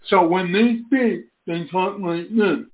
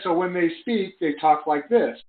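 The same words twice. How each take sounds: First: It is said in an imitated deaf speaker's voice. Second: It is said in the speaker's own normal voice.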